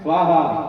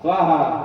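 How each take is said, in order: Both takes have the same delivery.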